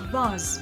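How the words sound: The vowel is a long ah, as in father. "British English, pronounced with an R sound like in father"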